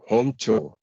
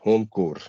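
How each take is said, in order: First: The second word ends without any R sound. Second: The second word ends with an R sound. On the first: The speaker calls it right. "There's no R sound at all" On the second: The speaker calls it wrong. "Many say core"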